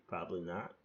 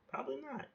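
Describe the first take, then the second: First: Said in the usual way. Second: Much higher, squeaky repeat of the same words. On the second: Shown as a demonstration. Mocking himself with a squeaky high echo. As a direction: pipe it up high like a mock echo.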